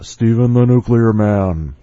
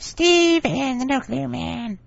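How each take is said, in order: First: It is said in his normal voice. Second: It is said in a Smurf-like voice.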